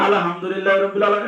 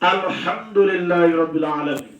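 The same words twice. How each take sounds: First: The h sound is said loosely, not clearly articulated. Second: The h sound is carefully and clearly articulated. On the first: It gives a shameful, wrong meaning. The speaker calls it wrong. "ওইটা কইছে" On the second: All praise is for God. The speaker calls it right. "তুমি উচ্চারণ করে কইলা"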